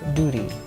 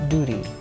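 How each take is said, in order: First: It is said in an American accent. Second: It is said in an American accent.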